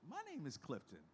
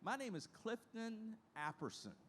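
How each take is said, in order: First: Said in the usual way. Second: Lightly voiced elderly lady, higher; a hint of an old lady introducing herself; the old lady's voice. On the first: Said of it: "I said". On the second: Resident telling the young trainee her name, lightly voiced. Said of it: "And she said".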